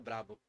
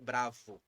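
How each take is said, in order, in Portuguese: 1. A consoante do meio faz som de B. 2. A consoante do meio faz som de V. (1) "Em espanhol é brabo" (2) "em português é bravo"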